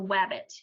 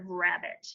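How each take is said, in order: First: The word begins with a W sound. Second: The word begins with an R sound. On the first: The speaker calls it wrong. "saying W for R" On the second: The speaker calls it right. "instead of rabbit"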